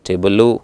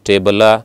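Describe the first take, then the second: First: The word ends with an added U vowel. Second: The word ends with an added A vowel. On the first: "ಲೂ ಅಲ್ಲ" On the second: "ಲಾ ಅಲ್ಲ"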